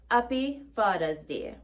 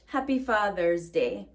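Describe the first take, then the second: First: "Happy Father's Day" as "appi Fadaz Tee", no h, d for th; patois "Happy Father's Day", dropped h; patois pronunciation. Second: "Happy Father's Day" with a clear h and th; English pronunciation. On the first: Teacher repeating the patois greeting for learners, patois pronunciation. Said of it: "in Jamaican Patois". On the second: Teacher giving the plain English version, standard pronunciation. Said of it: "Or we would just say it in English". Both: Shown as a demonstration.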